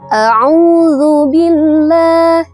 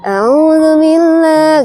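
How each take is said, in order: First: Each sound is articulated clearly and precisely. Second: The sounds are lazy and unclearly articulated. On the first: The speaker calls it right. "sesuai dengan pengucapan makhrajul hurufnya bakal enak didengar" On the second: The speaker calls it wrong. "Kayak orang malas gitu misalnya. ... nggak jelas"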